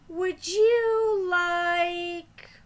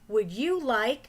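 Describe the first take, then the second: First: The words are held out long. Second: The words are said quickly.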